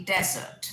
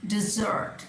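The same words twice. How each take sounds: First: डेजर्ट as DEZ-ert, open first vowel; the sandy desert. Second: डिजर्ट as di-ZURT with a long second syllable; the sweet dessert. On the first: Teacher spells then says it, डेजर्ट as DEZ-ert. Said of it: "डेजर्ट आपका रेगिस्तान". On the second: Teacher asks about syllable stress, डिजर्ट as di-ZURT. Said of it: "syllable किस पे stress करेंगे". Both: Shown as a demonstration.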